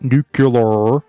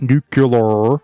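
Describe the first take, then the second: First: It is said as new-cue-lar. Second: The same.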